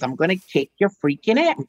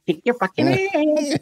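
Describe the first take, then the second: First: Said in the usual way. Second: High comic Pee Wee delivery; catchphrase voice. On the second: Shown as a demonstration. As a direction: kick your fucking ass in a much higher put-on voice. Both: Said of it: "And I said it like that".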